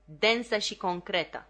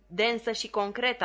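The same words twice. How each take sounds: First: Said in the usual way. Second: Bold repeat. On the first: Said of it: "Herbert răspunse din spatele meu". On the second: A narrator's reading. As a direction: repeat the phrase "Densă și concretă" boldly, as if you coined it. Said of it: "am repetat cu îndrăzneală".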